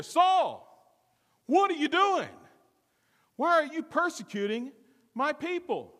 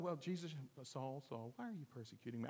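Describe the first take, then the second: First: Higher and louder, a calling boom. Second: Hushed, gentle call to Saul; quiet voice. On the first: Preacher voices Jesus calling down to Saul, loud and booming. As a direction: boom it out from heaven. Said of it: "loud enough for everybody to hear". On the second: Preacher imagines Jesus calling Saul in a hushed, quiet voice. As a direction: say it softly, as if just talking. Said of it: "it couldn't have been in a quiet". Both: Shown as a demonstration.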